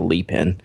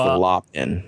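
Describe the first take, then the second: First: The first word has an 'ee' vowel. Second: The first word has an 'aw' vowel. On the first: The speaker calls it wrong. "I was actually pronouncing it wrong last week. It's not the Lee Pen" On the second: The speaker calls it right. "It's the Law Pen"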